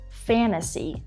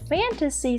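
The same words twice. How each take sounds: First: The t sound is left out. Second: The t sound is clearly pronounced.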